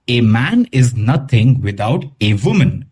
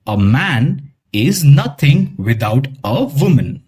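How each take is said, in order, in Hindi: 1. हर 'a' को अक्षर के नाम की तरह 'ay' बोला जाता है। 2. हर 'a' को छोटे 'uh' की तरह बोला जाता है। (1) "ऐसे प्रोनाउंस नहीं करेंगे" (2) "जब भी वो अकेला आएगा हम उसे अ ही प्रोनाउंस करेंगे।"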